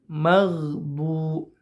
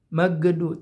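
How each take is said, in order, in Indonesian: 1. Tidak ada vokal tambahan setelah konsonan tengah. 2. Ada vokal tambahan setelah konsonan tengah. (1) "tapi maghdu" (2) "ini ini fatal nih. Jangan sampai seperti itu"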